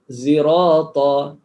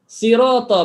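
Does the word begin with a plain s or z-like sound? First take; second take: z-like; plain s. First: The first consonant is blended toward a z sound. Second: The first consonant is a plain s sound.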